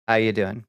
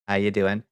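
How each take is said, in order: Both takes have the same delivery.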